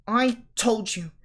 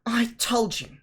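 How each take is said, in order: First: Breathless whispered gasp; winded whisper after running. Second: Whispered, out of breath; winded whisper, holding her chest; breathless whisper. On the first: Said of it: "Hermione gasped". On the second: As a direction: wheeze it through a stitch. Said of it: "clutching at the stitch in her chest". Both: A narrator's reading.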